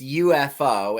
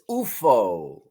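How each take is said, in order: First: The letters are spoken with English pronunciation. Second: The letters are spoken with Swedish pronunciation. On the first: "In English" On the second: "and in Swedish"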